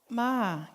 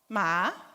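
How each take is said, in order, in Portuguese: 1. Tem o tom da palavra 'come'. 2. Tem o tom da palavra 'horse'. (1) "Ma quer dizer venha" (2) "Ma quer dizer cavalo"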